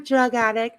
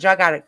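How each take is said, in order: First: It is said in a small, sweet voice. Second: It is said in a blunt, harsh voice. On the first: The insult is disguised as harmless. "she says it in this little sweet little voices" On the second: The insult is said openly. "It's just said differently"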